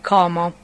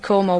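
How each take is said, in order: First: The o vowel is pronounced open. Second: The o vowel is pronounced closed. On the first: This is how southern Italians say it. "people from the south of Italy will pronounce it" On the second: This is how northern Italians say it. "We pronounce it"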